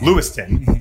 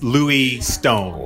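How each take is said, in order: First: The final syllable is short and reduced. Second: The final syllable is a full 'stone'. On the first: "instead of Lewiston" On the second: "it's Louis Stone"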